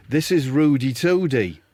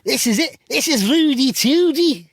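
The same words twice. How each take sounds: First: Put-on tentative Scouse accent; half-confident Scouse introduction; Wade Rooney. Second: High, loud, drawn-out Scouse; hammed-up Scouse, pitched right up; Wade Rooney. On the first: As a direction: try out a Scouse footballer's voice. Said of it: "I can't do Scouse". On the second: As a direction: exaggerate a squeaky-high Scouse accent. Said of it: "I'll do Wade Rooney's bits".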